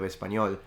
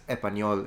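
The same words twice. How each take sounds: First: The first S sound is clearly pronounced. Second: The first S sound is left out. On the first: "instead of" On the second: "dropping the S at the beginning when he said just español"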